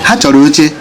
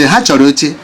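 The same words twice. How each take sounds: Both takes have the same delivery.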